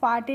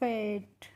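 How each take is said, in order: First: Two syllables, ending in an 'e' vowel. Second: One syllable, ending in a 't' sound. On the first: The speaker calls it wrong. "इसीलिए हम इसको फाटे नहीं पढ़ते हैं" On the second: The speaker calls it right. "क्या पढ़ते हैं फेट"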